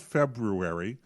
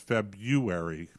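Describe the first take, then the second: First: The r after 'Feb' is pronounced. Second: The r after 'Feb' is dropped. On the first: This is how the word is spelled. "it's spelled February" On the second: This is how most people say it. "everybody says February"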